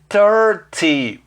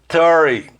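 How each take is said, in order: First: The T sound after the R is clearly pronounced. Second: The T sound is dropped, going from R to Y. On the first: "em vez de thirty" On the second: "vai direto do R para o Y"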